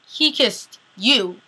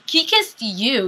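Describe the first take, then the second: First: "he" hit first, whole line slow; stress on he. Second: "kissed" drawn out slowly and leaned on; stress on kissed. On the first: Viewer insisting to Elena, slowly stressing "he". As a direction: hit "he" firmly and drag the words out. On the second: Viewer correcting the fan, slowly stressing "kissed". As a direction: lean slowly on "kissed", not on "he". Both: Shown as a demonstration. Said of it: "You didn't kiss him".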